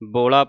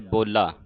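First: The L sound is short and soft. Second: The L sound is doubled and tight. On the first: The speaker calls it wrong. "ਕਈ ਸੰਗਤਾਂ ਬੋਲਾ ਪੜ ਜਾਂਦੀਆਂ ਹੈ" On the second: The speaker calls it right. "ਇਸ ਦਾ ਉਚਾਰਨ ਕਸ ਕੇ ਕੀਤਾ ਜਾਵੇ"

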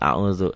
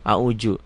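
First: The middle consonant sounds like z. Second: The middle consonant sounds like j. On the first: The speaker calls it right. "dal titik jadi dal auzu" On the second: The speaker calls it wrong. "Banyak kok yang salah baca Qur'annya"

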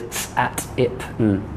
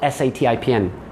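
First: Each letter is said as its pure sound. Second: Each letter is said by its alphabet name. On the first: The speaker calls it right. "Pure sounds" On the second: The speaker calls it wrong. "The first group is not"

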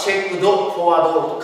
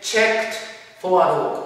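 First: Checked ends with a voiced d sound. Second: Checked ends with a breathy t sound. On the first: "カタカナでチェックドフォワードチェックドフォワードウォークと書いてあります" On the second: "英語的な発音としてはチェックトトトトという息の音ですからね"

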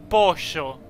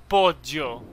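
The two takes are said the same way.

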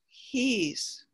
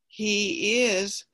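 First: The words are joined into one short syllable. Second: Two separate words are said in full. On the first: "becomes he's" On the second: "He is becomes"

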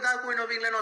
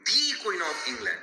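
First: 'The' is said as 'thuh', without emphasis. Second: 'The' is said as 'thee', with emphasis. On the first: The phrase is not given special importance. "যদি জোর না দাও তুমি বলবে দা queen of England" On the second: The phrase is given special importance. "এমফাসিস বা জোর দিয়ে কোনো কিছু বলার ক্ষেত্রেও কিন্তু আমরা দি ইউজ করি"

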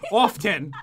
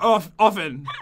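First: The T in the middle is pronounced. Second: The T in the middle is silent. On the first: "you've ever said often with pronouncing the T" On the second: "Normally you're like"

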